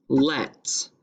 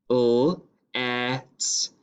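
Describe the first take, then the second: First: Said in the usual way. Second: "L-et" as a held l, pause, then et; sounded out. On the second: Shown as a demonstration. Teacher sounding out the second syllable, "L-et" in two parts. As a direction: break "L-et" into l and et. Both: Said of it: "second syllable is let".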